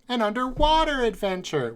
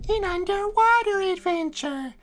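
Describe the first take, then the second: First: It is said in the speaker's normal voice. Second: It is said in an imitated character voice.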